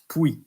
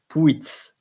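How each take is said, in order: First: The final T and S are silent. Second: The final T and S are sounded. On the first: The speaker calls it right. "the T and the S is not pronounced" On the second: The speaker calls it wrong. "It's not Puits"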